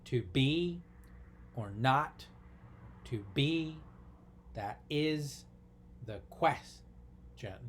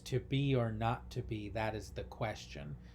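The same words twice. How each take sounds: First: Each syllable is separated, with beats clearly marked. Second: It flows at a natural conversational pace. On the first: "what if we really broke that down into syllables?" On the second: "I just said it very naturally"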